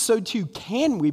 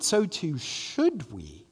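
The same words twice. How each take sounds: First: "can" lifted high as the contrast word; stress on can. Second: "should" peaks, then a slow, softer fall; stress on should. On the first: Preacher correcting himself to the congregation, stress on "can". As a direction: lean on "can", setting up a correction. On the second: Preacher urging the congregation further, stress on "should". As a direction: land the correction on "should", slowly. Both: Real, not acted.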